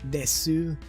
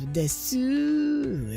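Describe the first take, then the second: First: The final vowel is fully pronounced. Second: It is said in an exaggerated cute way. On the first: The speaker wants to sound a little cuter. "full out pronouncing it if you want to sound a little bit cuter" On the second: The speaker wants to sound very cute. "if you really want to sound cute"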